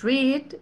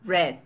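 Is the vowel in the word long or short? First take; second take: long; short. First: The vowel is long and drawn out. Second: The vowel is short and clipped. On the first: "los dos puntitos implica alargar el sonido de la vocal" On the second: "Es más como cortado"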